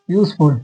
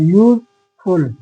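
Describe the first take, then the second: First: Said in the usual way. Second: useful slowly split into two parts, यूज and फुल; syllable by syllable. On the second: Shown as a demonstration. Teacher counting syllables for students, useful slowly broken in two. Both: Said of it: "यूज पहला syllable and फुल दूसरा syllable".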